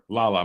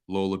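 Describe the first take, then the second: First: The first vowel sounds like 'ah'. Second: The first vowel sounds like 'oh'. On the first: The speaker calls it right. "or is it Lala?" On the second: The speaker calls it wrong. "I said it wrong a few times"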